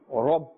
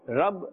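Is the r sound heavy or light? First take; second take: heavy; light. First: The r sound is heavy and full. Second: The r sound is light and thin. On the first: The speaker calls it right. "with a full mouth" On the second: The speaker calls it wrong. "Rab is incorrect"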